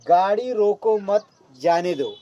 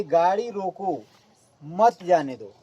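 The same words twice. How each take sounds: First: "गाड़ी रोको मत" as one phrase, then "जाने दो"; pause after मत. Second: Slow "गाड़ी रोको", clear break, then "मत जाने दो"; pause after रोको. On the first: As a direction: join मत to रोको, break before जाने दो. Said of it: "तीसरे वाक्य में क्या कहा जा रहा है कि गाड़ी को मत रोकिए". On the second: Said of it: "उसको मना किया जा रहा है कि गाड़ी को रोक लो". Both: Shown as a demonstration.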